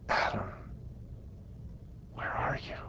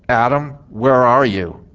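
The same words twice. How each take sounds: First: The voice sounds gentle and loving. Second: The voice sounds harsh and demanding. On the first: The caller misses the closeness they shared. "this is the way I believe it was" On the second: The caller is displeased and demands they come out. "we can imagine the tone of voice of that in several ways"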